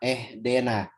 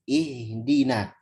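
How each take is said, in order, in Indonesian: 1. Vokal pertama terdengar seperti "eh". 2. Vokal pertama terdengar seperti "ee". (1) "malah ketipisan jadi imalah ... jadi bunyi eh ... Itu tidak tepat" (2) "Yang benar ihdina"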